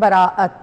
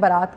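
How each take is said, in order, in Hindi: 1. यह तीन अक्षरों में बोला जाता है: ba-ra-at। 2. यह दो अक्षरों में बोला जाता है: baa-raat। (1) "बेसिकली ये लफ्ज़ है बराअत" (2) "ये लफ्ज़ बारात नहीं है जिसको हमने बारात कर दिया"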